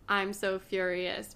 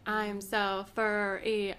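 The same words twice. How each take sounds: First: It is said at a normal pace. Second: It is said very slowly, drawn out.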